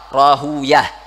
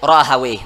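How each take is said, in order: First: The name ends with the sounds 'uyah'. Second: The name ends with the sounds 'awayh'. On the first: Hadith scholars prefer this reading. "namun ulama hadis yaitu lebih suka membaca ra, Rahuyah" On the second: Language scholars prefer this reading. "para ulama lughah itu lebih suka membaca Ibnu Rahawayh"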